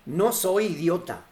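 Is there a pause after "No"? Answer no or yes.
no. It is said without a pause after no.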